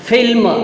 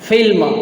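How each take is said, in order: Both takes have the same delivery.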